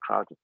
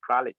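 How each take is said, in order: First: The name ends with a 'dee' sound. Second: The name ends with a soft 'j' sound. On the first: "we usually call it" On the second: "That's the correct pronunciation"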